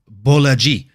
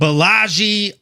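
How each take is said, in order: First: The first syllable has an 'oh' vowel. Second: The first syllable has an 'ah' vowel. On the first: The speaker calls it right. "he says it Bolaji" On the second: The speaker calls it wrong. "that's how I used to say it"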